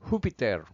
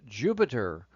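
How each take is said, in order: First: It is said with a Spanish pronunciation. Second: It is said with an English pronunciation.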